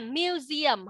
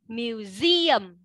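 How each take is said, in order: First: The stress is on the first syllable. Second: The stress is on the second syllable. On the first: The speaker calls it wrong. "không phải là museum" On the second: The speaker calls it right. "không có phát nhấn âm 1 mà nhấn âm 2"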